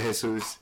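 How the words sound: The name is said with a Spanish pronunciation. This is how the name's owner says it. "I pronounce it Jesus"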